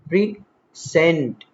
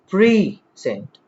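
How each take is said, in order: First: The stress is on the second syllable. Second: The stress is on the first syllable. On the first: It means to deliver. "verb, we deliver" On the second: It means a gift. "noun, it's a gift"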